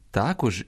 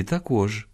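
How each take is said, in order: First: "також" stressed on "та"; first-syllable stress. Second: "також" stressed on "кож"; second-syllable stress. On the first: Teacher showing a double stress, "також" stressed on "та". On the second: Teacher showing a double stress, "також" stressed on "кож". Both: Shown as a demonstration. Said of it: "двояке наголошування нормативне".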